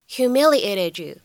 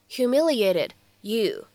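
First: The final t and y blend into one sound. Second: The two words are said separately, without blending. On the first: "轻微带一个音的同化" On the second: "分开读"

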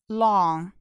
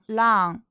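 First: The vowel is an open 'aw' sound. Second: The vowel is not an open 'aw' sound. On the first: The speaker calls it right. "要发成long。o 发的是all" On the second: The speaker calls it wrong. "大家不要发成long"

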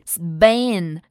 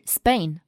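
First: The consonant after s is a voiced b. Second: The consonant after s is an unaspirated voiceless p. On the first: The speaker calls it wrong. "其实它的发音并不是Spain" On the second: The speaker calls it right. "而是Spain，这时候这个b p 的发音就是不送气的清辅音"

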